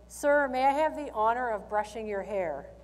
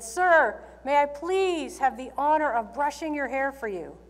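First: It is said at a normal, quiet volume. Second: It is yelled very loudly.

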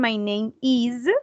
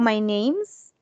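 First: The verb is said as a separate full word. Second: The verb is reduced and joined to the noun. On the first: "Remember the pronunciation" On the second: "que es un poco más común"

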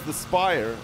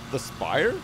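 First: It is said in the speaker's ordinary accent. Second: It is said in an exaggerated Irish accent. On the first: "what people here refer to as" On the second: "bit racist. I'm sorry"

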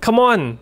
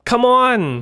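First: It sounds urgent and impatient to hurry. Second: It sounds exasperated and fed up. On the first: Hurry up. "อาจจะแปลว่าเร็วเข้าแบบเร็วๆหน่อย" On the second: Stop being like that. "อาจจะแปลว่าเอาหน้า"

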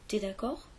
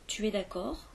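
First: The pronoun is shortened to a bare t. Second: The pronoun tu is said in full.

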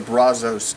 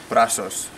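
First: The word is said with an English pronunciation. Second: The word is said with a Spanish pronunciation. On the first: The speaker calls it wrong. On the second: The speaker calls it right.

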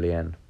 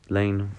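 First: The name is said like 'lean'. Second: The name is said like 'lane'. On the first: The speaker calls it wrong. "I've been saying it wrong for a long time" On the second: The speaker calls it right. "my name's pronounced Lane"

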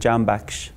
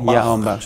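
First: The name begins with a J sound. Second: The name begins with a Y sound. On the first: "اینا براشون خ تلفظ سخت بود" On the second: "جو که جی و ی میخونن دیگه هلندیا"

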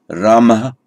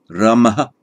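The two takes are said the same way.

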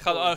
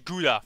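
First: The word is pronounced the Dutch way. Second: The word is pronounced the American way.

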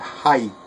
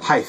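First: The word ends with a plain t sound. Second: The word ends with a th sound. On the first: The speaker calls it right. "There is no H at the end" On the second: The speaker calls it wrong. "Height is not a word"

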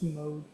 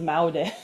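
First: The word begins with a single o vowel. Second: The word begins with separate a and o vowels. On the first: The speaker calls it right. "It's mode" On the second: The speaker calls it wrong. "I would have pronounced as maode"

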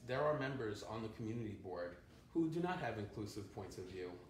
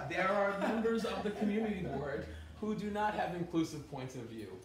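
First: It is said at a quieter volume. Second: It is said at a louder volume.

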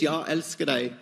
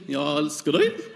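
First: It is said with a Swedish accent. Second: It is said with a Norwegian accent.

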